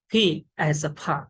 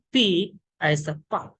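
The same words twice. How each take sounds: First: Pa with a puff of air after the p; American aspirated P. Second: Pa with no puff of air after the p; Indian unaspirated P. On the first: Teacher showing learners the American P, aspirated pa. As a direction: say pa breathily released, like pha. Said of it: "but American accent". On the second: Teacher showing how Indian speakers say P, unaspirated pa. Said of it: "In Indian accent, all speakers". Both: Shown as a demonstration.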